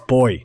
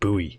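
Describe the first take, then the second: First: It is pronounced the Australian way. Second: It is pronounced the American way. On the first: The speaker calls it right. "And it's boy" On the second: The speaker calls it wrong. "not buoy"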